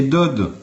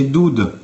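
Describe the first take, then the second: First: "Dod" said with an open o, like dod in dodo; Hebrew reading Dod. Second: "Doud" said with a clear oo vowel, dood; Hebrew reading Doud. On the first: Showing viewers the other vowel points, "Dod" said with open o. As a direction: read "Dod" with a short open o. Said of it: "Je reprends le même mot". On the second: Showing viewers the vowel points, "Doud" said dood. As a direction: read "Doud" as dood, rounded oo. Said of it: "Si je te fais ça, là, il y a marqué". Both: Shown as a demonstration.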